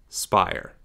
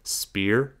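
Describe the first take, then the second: First: The vowel sounds like the 'eye' sound. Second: The vowel sounds like the 'ee' in speed. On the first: The speaker calls it wrong. "not Spire" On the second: The speaker calls it right. "it is pronounced Spear, like S, like like in speed"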